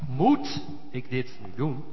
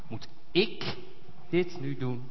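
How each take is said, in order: First: The stress falls on the word moet. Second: The stress falls on the word ik.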